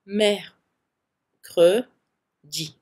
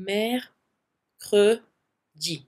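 Both takes have the same delivery.

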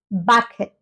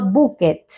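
First: The first vowel sounds like 'a'. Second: The first vowel sounds like 'u'. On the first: The speaker calls it right. "Esta U pasaría a sonar como una A" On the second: The speaker calls it wrong. "no bucket"

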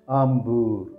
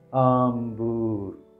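First: It is said at normal speed. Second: It is said slowly.

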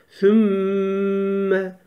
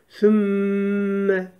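The two takes are said the same way.

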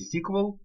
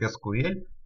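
First: It is said the way English speakers say it. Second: It is said the usual, non-English way.

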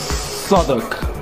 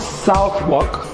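First: The W in the middle is silent. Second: The W in the middle is pronounced. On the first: The speaker calls it right. "it's Southwark, silent W" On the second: The speaker calls it wrong. "So not Southwark"

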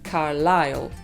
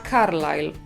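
First: The stress is on the second syllable. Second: The stress is on the first syllable. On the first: The speaker calls it right. "po angielsku on pada na drugą, więc mówimy Carlisle" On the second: The speaker calls it wrong. "Po polsku chyba bym powiedziała Carlisle, więc można sobie ten akcent przenieść na pierwszą sylabę"

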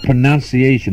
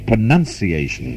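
First: The second syllable sounds like 'noun'. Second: The second syllable sounds like 'nun'. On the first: The speaker calls it wrong. "The word is not" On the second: The speaker calls it right.

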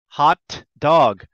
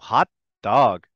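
First: The T is released before the next word. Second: The T is held silent before the next word. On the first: The speaker calls it wrong. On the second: The speaker calls it right. "I make the shape of the T, but I don't say it"

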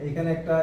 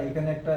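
Both takes have the same delivery.

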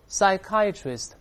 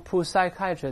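First: The initial p sound is silent. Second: The initial p sound is pronounced. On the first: The speaker calls it right. "那个p 不发音啊，再来念psychiatrist" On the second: The speaker calls it wrong. "不要读psychiatrist"

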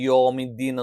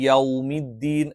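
First: The first vowel is a plain o sound. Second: The first vowel glides from a to w. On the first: The speaker calls it wrong. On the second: The speaker calls it right.

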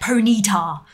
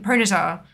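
First: It is said slowly with heavy emphasis on 'ny'. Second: It is said quickly and smoothly, without exaggeration. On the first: "putting massive emphasis on the Y" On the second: "I'm just saying it quickly"

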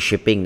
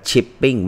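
First: The word begins with an 'sh' sound. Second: The word begins with a 'ch' sound. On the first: The speaker calls it wrong. "ไม่ใช่ Shipping" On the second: The speaker calls it right. "ออกเสียงว่า Chipping"

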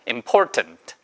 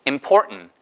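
First: The middle t is clearly released. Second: The middle t is swallowed through the nose.

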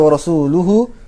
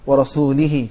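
First: The ending has u vowels: rasuluhu. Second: The ending has i vowels: rasulihi. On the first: The Messenger is also free from the polytheists. The speaker calls it right. "Instead of وَرَسُولُهُ" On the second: God is free from the polytheists and from the Messenger. The speaker calls it wrong. "he recited"

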